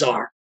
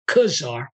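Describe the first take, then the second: First: The word begins with a z sound. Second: The word begins with a k sound. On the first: The speaker calls it right. "it's foreign word pronounced czar" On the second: The speaker calls it wrong. "that word is not kazar"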